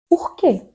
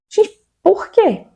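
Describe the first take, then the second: First: Softer, resigned "Por quê?" falling away; deflated repeat. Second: High, slow, drawn-out despairing why; exasperated plea. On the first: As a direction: let the "Por quê?" sag after the outburst. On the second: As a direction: throw up your hands and wail the "por quê". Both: Real, not acted.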